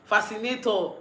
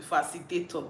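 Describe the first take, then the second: First: Fascinator said as the right word, a little higher and louder; landing on the right word fascinator, with emphasis; corrected fascinator. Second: Says facilitator, the wrong word, said plainly; sliding into the wrong word facilitator; mistaken facilitator. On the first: Correcting herself on camera, finally saying fascinator. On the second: Correcting herself on camera, first saying facilitator. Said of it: "I know it's facil". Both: Shown as a demonstration.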